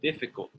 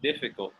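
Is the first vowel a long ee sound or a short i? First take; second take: short i; short i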